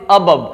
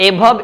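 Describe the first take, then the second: First: "above" as uh-BUV; correct pronunciation. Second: "above" as AY-buv; wrong pronunciation. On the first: Teacher modelling for learners, "above" as uh-BUV. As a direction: start "above" on a short weak "uh". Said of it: "it's above". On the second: Teacher showing learners the mistake, "above" as ay-BUV. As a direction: start "above" on a long "ay". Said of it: "it's not above". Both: Shown as a demonstration.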